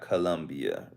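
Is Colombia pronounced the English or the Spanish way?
English. The name is pronounced the English way. This is how English speakers say it. The speaker calls it wrong. "it's not Colombia"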